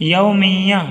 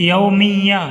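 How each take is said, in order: No difference in how they are said.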